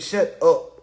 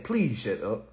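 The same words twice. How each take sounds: First: Said in the usual way. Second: Softer polite. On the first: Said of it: "Tell him I said". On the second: Retold or imitated. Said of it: "tell her I said".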